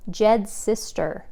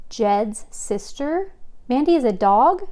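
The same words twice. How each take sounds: First: Said in the usual way. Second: Slow, disbelieving rising echo; dawning surprise, then louder; surprised. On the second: A narrator's reading. Chloe realises Mandy is dog.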